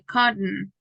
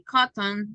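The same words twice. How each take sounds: First: The T is stopped as a glottal stop. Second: The T is fully released before the ending. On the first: The speaker calls it right. "You say cotton" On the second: The speaker calls it wrong. "You don't say cotton"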